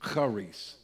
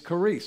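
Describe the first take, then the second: First: The word is said in a Jewish-style accent. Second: The word is said in a plain way. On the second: "the original word is charis"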